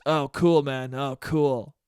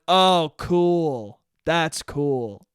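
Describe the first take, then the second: First: Unimpressed "Oh, cool," lightly imitated; mock-dismissive "cool"; lightly voiced bored guy. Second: Flat, unimpressed "Oh, cool."; mirroring his bored tone right back at him; dismissive oh cool. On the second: Retold or imitated. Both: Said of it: "In that exact tone of voice".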